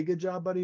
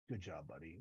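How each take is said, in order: First: Said in the usual way. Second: Much softer and lower, flat deadpan praise; grudging mutter of approval; stone-faced deadpan. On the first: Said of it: "he doesn't say". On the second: Retold or imitated. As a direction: say it with a stone face, no warmth at all. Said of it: "he doesn't say, "Good job, buddy," but he, like, stone faces it".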